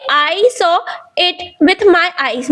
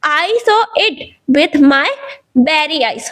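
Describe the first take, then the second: First: Said in the usual way. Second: "very" set off by pauses and pressed on; stress on very. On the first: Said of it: "मैं बोल सकता था कि". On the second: Shown as a demonstration. Teacher showing emphasizing adjectives to students, stress on "very". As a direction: give "very" a small extra push after a pause. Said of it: "noun पर थोड़ा सा जोर दिया".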